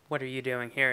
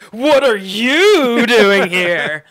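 First: It is said in a natural, grounded way. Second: It is said in an exaggerated sitcom way.

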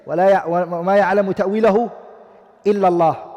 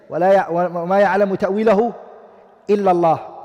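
First: The reading stops right after 'Allah'. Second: The same.

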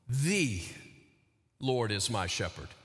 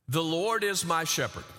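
First: The stress is on "The". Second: It is said evenly with no special stress.

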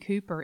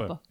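First: It is said with a long oo and final r. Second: It is said with a short vowel and no r.

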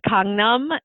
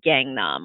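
First: The name is said with a Korean pronunciation. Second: The name is said with an American pronunciation. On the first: "It's Gangnam" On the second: "the Americanized way would be Gangnam"

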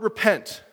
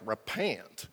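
First: It is said in a plain, neutral accent. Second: It is said with a southern twang.

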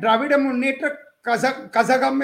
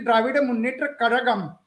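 First: Kazhagam is said with a plain z sound. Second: Kazhagam is said with a retroflex L sound. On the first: This is the reading based on the English spelling. The speaker calls it wrong. "is how you read it in an English paper" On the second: This is the native Tamil pronunciation. The speaker calls it right. "It's actually ... Kazhagam using that third L"

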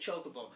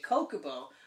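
First: The word begins with a ch sound. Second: The word begins with a hard k sound. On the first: The speaker calls it wrong. "chocolate is spelt C-H-O, ... So I can see why people would say chocobo. It's wrong" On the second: The speaker calls it right. "my name is spelt C-H-R-I-S. I say [name], so I would say Kokobo"

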